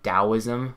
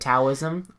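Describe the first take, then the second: First: The word begins with a D sound. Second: The word begins with a T sound.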